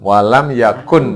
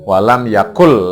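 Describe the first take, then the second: First: The n sound is pronounced clearly before the l. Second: The n sound is skipped, running into the l. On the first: "Walam yakun dulu" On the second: "langsung nunnya dilewati"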